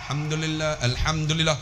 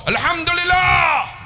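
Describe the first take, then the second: First: Sung, echo Alhamdulillah low and even; sung, zikir response. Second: High, slow, loud call; leading zikir. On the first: Pilgrims echoing the second round, low chant. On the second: Guide starting the second round, loud call. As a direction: call ALHAMDULILLAH out long and high. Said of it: "Round kedua". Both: Retold or imitated.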